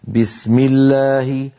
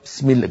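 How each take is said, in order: First: The opening b is strong, voiced and fully stopped. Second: The opening b is weak and squashed, barely heard. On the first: The speaker calls it right. "وصوتها هكذا: بسم الله، بي بي شديدة مجهورة" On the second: The speaker calls it wrong. "وكأن الباء صارت ممعوسة مهروسة، صوتها ضعيف جدا"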